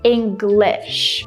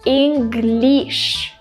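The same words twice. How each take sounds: First: The last syllable's vowel is relaxed, like sit. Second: The last syllable's vowel is tense, not relaxed. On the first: The speaker calls it right. "just like in the word sit" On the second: The speaker calls it wrong. "a lot of people say English"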